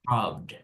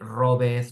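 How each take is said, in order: First: The ending is one sound, with no extra syllable. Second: The ending is said as an extra syllable. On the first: The speaker calls it right. "you say" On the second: The speaker calls it wrong. "you don't say robeth"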